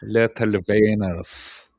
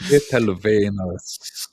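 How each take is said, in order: First: Little wieners again with a German v, slow; slow German-tinged Little wieners; mock German pronunciation. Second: Little wieners with a German v, slow; drawn-out German-sounding Little wieners; mock German pronunciation. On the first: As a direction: savour Little wieners as "lettle venners". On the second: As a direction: say Little wieners as "lettle venners", slowly. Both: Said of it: "repeating the phrase".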